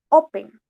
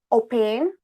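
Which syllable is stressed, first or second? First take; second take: first; second. First: The stress is on the first syllable. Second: The stress is on the second syllable. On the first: The speaker calls it right. "Open lleva entonces el acento en la primera sílaba" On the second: The speaker calls it wrong. "nosotros no decimos open"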